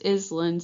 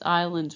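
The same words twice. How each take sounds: First: The S in the middle is pronounced. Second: The S in the middle is silent. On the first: The speaker calls it wrong. "It's not pronounced islands" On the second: The speaker calls it right. "We don't pronounce that S"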